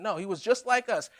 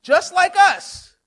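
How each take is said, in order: First: Said in the usual way. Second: "Just like us" drawn out slowly, louder and higher; stressed slowly. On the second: Shown as a demonstration. Preacher completes the verse for the congregation, slow and loud. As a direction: land each word of "Just like us".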